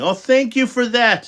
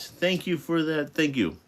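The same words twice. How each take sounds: First: High, loud, delighted thank you; excited thanks. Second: Soft thanks. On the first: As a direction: gush your thanks. Reader thanking someone. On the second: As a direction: thank them gently and sincerely. Reader thanking again softly. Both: Real, not acted.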